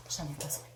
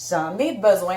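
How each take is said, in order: First: Low, very soft aside; hushed admission. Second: BESOIN said out in full voice; emphatic repeat. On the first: Vlogger justifying her box to herself, hushed admission. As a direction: murmur it low, as if to yourself. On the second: Vlogger insisting to viewers on her purchase, "besoin" said out emphatically. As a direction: state "besoin" firmly and clearly aloud. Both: Real, not acted.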